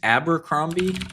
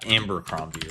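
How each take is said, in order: First: The word begins with a plain ab sound. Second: The word begins with an amb sound. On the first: The speaker calls it right. "It's Abercrombie" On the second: The speaker calls it wrong. "not Ambercrombie"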